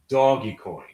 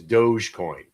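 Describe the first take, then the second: First: The first part is said as two syllables, 'doggy'. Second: The first part is said as one syllable, 'dohj'. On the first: The speaker calls it right. "as long as you call it doggy coin, I'm good with you" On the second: The speaker calls it wrong. "Anybody who still who calls it Doge is a douche"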